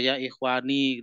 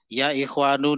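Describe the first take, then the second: First: The last word ends with an 'i' vowel. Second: The last word ends with an 'u' vowel. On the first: The speaker calls it wrong. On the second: The speaker calls it right.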